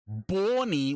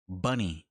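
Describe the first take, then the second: First: The first vowel sounds like the one in 'Bonnie'. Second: The first vowel sounds like the one in 'bunny'. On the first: The speaker calls it wrong. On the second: The speaker calls it right.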